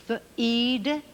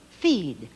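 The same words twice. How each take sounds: First: "Feed" slightly higher with a rising tune; rising try. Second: "feed" with a firm falling tune, long d; falling confirm. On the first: Teacher sounding out "Feed" for children. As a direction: lift "Feed" like a first try. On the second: Teacher confirming "feed" for children. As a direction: land "feed" down, final. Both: Shown as a demonstration. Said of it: "Double E sound again".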